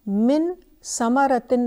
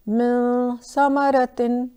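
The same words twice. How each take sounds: First: The n is pronounced as a clear n. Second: The n is hidden and nasalized, held longer. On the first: The speaker calls it wrong. "इसको हम मिन समरतिन नहीं कहेंगे" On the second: The speaker calls it right. "नून क्लियर नहीं है, नेज़ल है"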